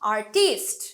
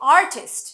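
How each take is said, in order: First: The stress is on the second syllable. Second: The stress is on the first syllable. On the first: The speaker calls it wrong. "Not artist" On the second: The speaker calls it right. "Art থেকে আসছে artist"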